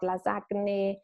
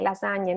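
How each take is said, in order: First: Lasagne as "la-ZAG-neh"; wrong hard G. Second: Lasagne as "la-ZAN-yeh"; GN sound. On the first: Teacher shows the mistake, lasagne with hard G. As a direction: sound G and N separately in lasagne. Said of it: "it's not lasagne". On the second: Teacher shows students lasagne with NY sound. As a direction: blend the gn of lasagne into ny. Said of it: "how to pronounce the G N sound". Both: Shown as a demonstration.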